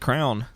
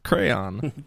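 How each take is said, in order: First: The word is said with one syllable. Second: The word is said with two syllables. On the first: The speaker calls it wrong. "Some people say crown" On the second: The speaker calls it right. "It's crayon"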